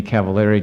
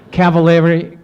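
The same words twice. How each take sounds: First: Said in the usual way. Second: Cavallari said higher and louder, every syllable stressed; emphatic repeat. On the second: Shown as a demonstration. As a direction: hit Cavallari again, insisting. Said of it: "no kidding".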